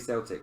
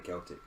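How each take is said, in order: First: The word begins with a soft S sound. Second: The word begins with a hard K sound. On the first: It is said the way the football teams' name is said. "I say Celtic" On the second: It is said the way others keep telling him to say it. "I don't say Celtic"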